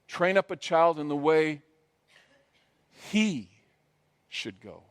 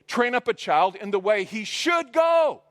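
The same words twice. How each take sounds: First: The word 'he' is stressed. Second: The word 'he' is not stressed.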